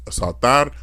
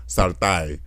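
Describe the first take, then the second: First: Said in the usual way. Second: "saltar" ending in "ai" for "ar". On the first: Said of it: "instead of saying R". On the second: Shown as a demonstration. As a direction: turn the last r of "saltar" into i. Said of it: "they say I".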